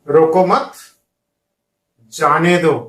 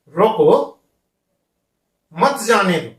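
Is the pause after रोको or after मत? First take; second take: after मत; after रोको. First: The pause comes right after मत. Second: The pause comes right after रोको.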